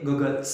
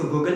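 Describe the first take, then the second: First: गॉगल्स ending in an s sound after l; गॉगल्स, final s added; form with final S. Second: गॉगल ending on l, no final s; गॉगल with the final s left off; wrong form without S. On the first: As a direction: say गॉगल्स with the closing s. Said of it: "इसको बोलेंगे". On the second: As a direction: say गॉगल without the closing s sound. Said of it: "नहीं बोलेंगे sir". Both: Shown as a demonstration.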